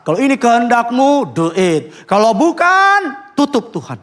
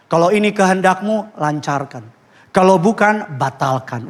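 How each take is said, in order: First: A lightly acted prayer that leans on the word bukan; pushy prayer. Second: A lightly done, overly holy prayer; pious prayer. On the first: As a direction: press God to decide, slow and emphatic on bukan. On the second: Retold or imitated. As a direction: pray it sweetly, sounding very spiritual. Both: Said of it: "Wih, rohani banget ya".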